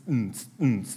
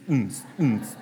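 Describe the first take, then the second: No difference in how they are said.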